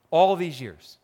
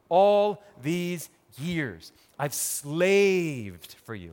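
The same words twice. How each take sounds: First: Said in the usual way. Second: Slow pleading. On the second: Acted. Older brother complaining to his dad, slow and drawn out. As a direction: drag out all these years slowly.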